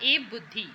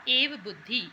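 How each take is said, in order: Both takes have the same delivery.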